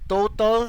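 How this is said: It is pronounced with an English pronunciation. "how they pronounce it in, in the English way"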